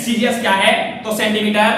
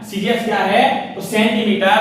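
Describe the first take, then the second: No difference in how they are said.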